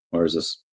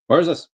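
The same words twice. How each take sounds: First: Said in the usual way. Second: High, rising, puzzled question; baffled. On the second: Real, not acted. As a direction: ask it again in disbelief.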